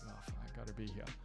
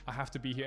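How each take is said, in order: First: It sounds reluctant, like an unwanted obligation. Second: It sounds willing and keen to be there.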